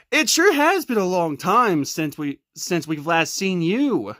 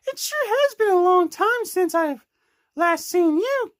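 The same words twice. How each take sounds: First: Low Patrick voice. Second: Lightly voiced higher Amy; higher girl voice. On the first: Pretend. Patrick greets friends, low voice. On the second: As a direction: lift the pitch for a girl character.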